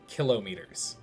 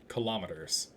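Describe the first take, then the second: First: The word begins with a full 'kilo' sound. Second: The 'kilo' part is blended into the word. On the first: "it should be phonetically pronounced kilometers. You know, like a kilo" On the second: "we always use kilometers"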